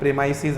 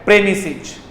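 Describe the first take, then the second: First: The middle vowel is a long 'eye' sound. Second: The middle vowel is a short 'ih' sound. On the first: The speaker calls it wrong. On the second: The speaker calls it right.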